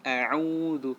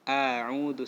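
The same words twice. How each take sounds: First: The first vowel is kept short. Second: The first vowel is drawn out long. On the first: The speaker calls it right. "tapi a'udzu" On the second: The speaker calls it wrong.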